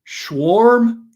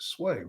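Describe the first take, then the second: First: The name begins with a 'sh' sound. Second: The name begins with a plain 's' sound. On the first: The speaker calls it wrong. "they're throwing in C H's and R's that aren't even there" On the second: The speaker calls it right. "It's aim with S W in front of it"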